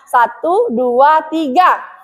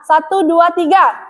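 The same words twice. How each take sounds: First: It is counted at a medium pace. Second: It is counted at a fast pace.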